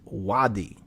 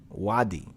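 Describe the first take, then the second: No difference in how they are said.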